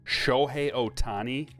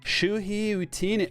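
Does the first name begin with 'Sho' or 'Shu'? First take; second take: Sho; Shu. First: The first name begins with a 'sho' sound. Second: The first name begins with a 'shu' sound. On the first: The speaker calls it right. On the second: The speaker calls it wrong.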